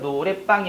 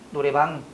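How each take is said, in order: First: The 방 starts with a tensed consonant. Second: The 방 starts with a plain consonant. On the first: The speaker calls it wrong. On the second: The speaker calls it right.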